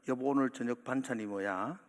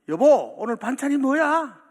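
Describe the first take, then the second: First: It is said at a normal, quiet volume. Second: It is said the loudest of all.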